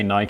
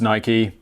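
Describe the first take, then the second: First: It is said the British way, rhyming with 'bike'. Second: It is said the American way, like 'Nikey'.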